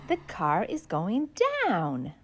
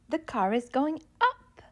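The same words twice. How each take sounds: First: Low, soft voice sinking on "down"; going down. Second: Going up. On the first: Teaching kids down, voice dropping low. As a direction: sink low with the car on "down". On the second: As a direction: voice climbs on up. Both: Shown as a demonstration.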